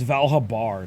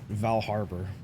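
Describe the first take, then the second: First: There is no R sound before the B. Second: An R sound comes before the B. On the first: The speaker calls it right. "It's Valhabar" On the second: The speaker calls it wrong. "as if there's like an R before the B"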